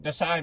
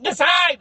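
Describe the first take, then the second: First: Said in the usual way. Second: High, loud mock order; frustrated demand. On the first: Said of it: "she got upset". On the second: Clown guide to stubborn visitor, frustrated demand. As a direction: shout it in exasperation. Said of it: "she got so frustrated".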